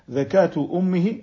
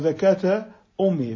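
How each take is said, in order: First: The first word ends in a 'u' vowel. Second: The first word ends in an 'a' vowel. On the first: The mother's slaughter suffices for the fetus. "فعلى رواية زكاة أمه بالرفع" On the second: The fetus needs its own slaughter like its mother's. "أما على النصب"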